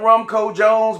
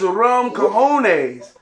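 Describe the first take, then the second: First: The name ends like the English word 'Jones'. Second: The name ends with the Spanish word 'cojones'. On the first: The speaker calls it wrong. "I used to say all the time Rumco Jones" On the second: The speaker calls it right. "it's Rum Cojones"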